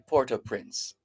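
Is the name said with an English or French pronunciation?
English. The name is said with English pronunciation. "it's okay to just simply say Port-au-Prince"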